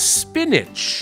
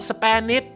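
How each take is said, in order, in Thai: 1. สระตัวแรกเป็นเสียง i สั้น 2. สระตัวแรกเป็นเสียง eh (1) "คำนี้นะครับออกเสียงว่า, spinach" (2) "บางคนบอกสเปนิช"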